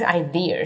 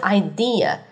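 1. 结尾是卷舌的 r 音。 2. 结尾没有任何 r 音。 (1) "你千万不要卷舌读成idea 啊，好难听" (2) "是idea"

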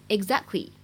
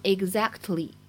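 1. t 音只做了口型，没有爆破。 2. t 音完整发出，并且爆破了。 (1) "你可以直接读成exactly，这个它只做了一个口型，并没有完全读出来" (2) "你不需要费力的去读成exactly"

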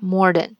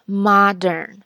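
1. r音在第一个音节。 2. r音在第二个音节。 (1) "就是我以前读那个错的modern" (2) "连在一起应该是modern"

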